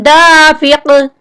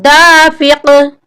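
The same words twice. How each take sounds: No difference in how they are said.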